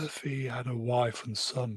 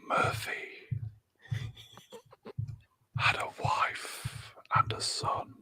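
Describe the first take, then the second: First: It is said in a normal speaking voice. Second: It is said in a soft, whispery ASMR voice.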